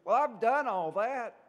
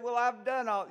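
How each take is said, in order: First: Higher, much louder, indignant insistence; justifying himself. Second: Higher and louder, insistent self-defence; justifying himself. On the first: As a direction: push back hard, you've kept every rule. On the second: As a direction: protest that you've already done it all. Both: Retold or imitated. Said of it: "he had to justify himself".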